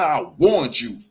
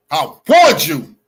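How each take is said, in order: First: Lower-pitched, firm reminder; pointed reminder. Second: WARNED punched loud and drawn out; slow, loud stress on "warned"; emphatic repeat. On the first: Telling the woman she was warned, pointed. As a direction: state it firmly, held down in pitch. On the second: Telling the woman she was warned, emphatic. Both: Real, not acted.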